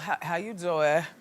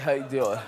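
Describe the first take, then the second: First: It is said without sounding tired. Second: It is said sounding very tired.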